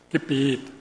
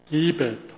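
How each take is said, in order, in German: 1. Die Betonung liegt auf der zweiten Silbe. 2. Die Betonung liegt auf der ersten Silbe. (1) "wenn man es anders betont" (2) "Ich könnte es auch so formulieren"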